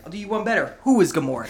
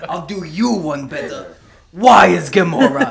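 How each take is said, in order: First: Said in the usual way. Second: Slow, put-on comic accent, building to a loud punchline; Drax accent. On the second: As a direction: stretch it out in a mock accent, booming the question. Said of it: "fun little accent you put on Drax".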